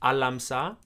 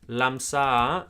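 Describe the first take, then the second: First: The word starts with an a sound. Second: The word starts with an l sound.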